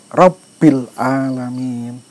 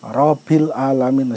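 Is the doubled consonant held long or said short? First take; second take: long; short. First: The doubled consonant is pressed and held long. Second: The doubled consonant is said short, not held. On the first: The speaker calls it right. "Rabbil ditekan" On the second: The speaker calls it wrong. "ora oleh"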